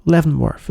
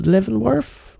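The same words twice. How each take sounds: First: Leavenworth, said flat and falling; Leavenworth, with a firm level fall; confirming. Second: Leavenworth? with a rising, doubtful tune; Leavenworth? said tentatively, pitch climbing; unsure question. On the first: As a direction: state Leavenworth, as settled fact. Settling on the prison name. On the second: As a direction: ask Leavenworth? as if checking the name. Unsure of the prison name. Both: Real, not acted.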